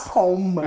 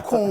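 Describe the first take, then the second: First: "com" with the final M fully sounded; closed-lip M. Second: "com" ending in a nasal vowel, no M. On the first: Teacher showing what Brazilians do not say, "com" with hard M. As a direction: close the lips and hum the M in "com". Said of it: "Você pronuncia esse M?". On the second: Teacher showing how Brazilians really say it, nasal "com" without M. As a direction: let "com" ring nasally, lips open. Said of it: "Já virou nasal". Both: Shown as a demonstration.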